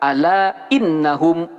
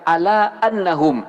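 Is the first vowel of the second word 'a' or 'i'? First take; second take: i; a. First: The second word begins with an 'i' vowel. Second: The second word begins with an 'a' vowel. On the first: The speaker calls it right. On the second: The speaker calls it wrong. "tidak boleh dibaca"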